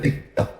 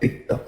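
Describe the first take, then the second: No difference in how they are said.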